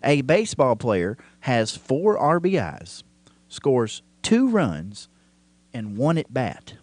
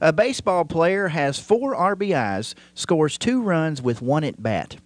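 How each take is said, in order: First: It is read slowly. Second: It is read at normal speed.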